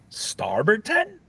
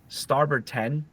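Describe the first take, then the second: First: It is said with a questioning rise. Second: It is said as a flat, plain statement. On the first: The order is repeated but doubted as a mistake. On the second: The order is simply confirmed.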